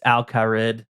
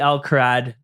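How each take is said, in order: First: The last syllable has an 'ih' vowel. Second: The last syllable has an 'ah' vowel. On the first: The speaker calls it right. "even though I know it's Alcarid" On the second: The speaker calls it wrong. "always be Alcarad to me"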